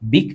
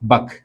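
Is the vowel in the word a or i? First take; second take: i; a. First: The word has an i vowel. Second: The word has an a vowel. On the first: This is the standard formal form. "ബിക് എന്നാണ് ശരിക്കും ഫുസ്ഹയിൽ വരിക" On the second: This is the everyday spoken form. "സംസാരത്തിൽ എന്താണ് ബക് എന്ന് പറയാം"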